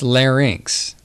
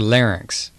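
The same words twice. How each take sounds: First: The word is said carefully and fully. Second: The word is said quickly and reduced.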